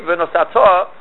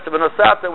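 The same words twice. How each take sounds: First: "V'nosato" with the final "to" stressed firmly; stress on last syllable. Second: "V'nosata" with the accent on "sa"; stress before the last syllable. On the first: Teacher showing the proper command form, last syllable stressed. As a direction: land the accent on the end of "V'nosato". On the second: Teacher showing the mistaken past form, next-to-last syllable stressed. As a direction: stress "sa" in "V'nosata", leaving "ta" light. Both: Shown as a demonstration. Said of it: "as it's supposed to be pronounced".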